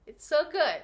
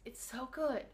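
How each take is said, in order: First: Said in the usual way. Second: Soft aside. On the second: Real, not acted.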